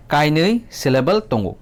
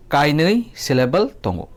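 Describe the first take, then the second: No difference in how they are said.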